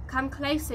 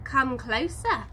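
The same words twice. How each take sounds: First: Said in the usual way. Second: Slow, menacing invitation; growl. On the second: A narrator's reading. Dingo luring the wallaby closer, slow mock growl. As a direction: lure him in slowly, like a hungry dog. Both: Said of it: "she growls".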